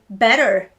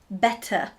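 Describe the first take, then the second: First: The middle T is a soft flap. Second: The middle T is crisply enunciated. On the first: "Americans say better" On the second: "English people would say better"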